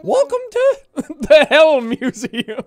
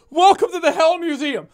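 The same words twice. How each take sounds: First: Slow, louder owl voice cracking up; laughing through it. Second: Higher, louder proud announcement; owl curator voice. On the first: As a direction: try to stay in character but crack up. Blathers voice breaking into laughter. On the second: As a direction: announce the museum grandly. Clean retake of the line. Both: Pretend.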